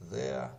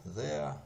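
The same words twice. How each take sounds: The two takes are said the same way.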